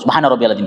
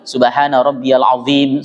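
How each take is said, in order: First: It is said fast, like scolding. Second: It is said slowly and heartfelt.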